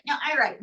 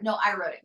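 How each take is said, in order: First: Lightly voiced puppet, pitched higher; puppet arguing back. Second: Said in the usual way. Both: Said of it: "No, no, May".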